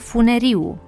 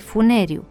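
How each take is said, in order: First: The stress falls on the i. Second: The stress falls on the e. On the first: The speaker calls it wrong. "Tot greșit" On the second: The speaker calls it right. "sufixul de agent accentuat ar-er"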